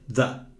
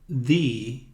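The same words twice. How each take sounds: First: The word ends with a short 'uh' vowel. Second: The word ends with a long 'ee' vowel. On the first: This is the usual form. "Geralmente é the" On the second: The next word begins with a vowel sound. "Por causa da vogal aqui, ou do som da vogal, eu pronuncio aqui the"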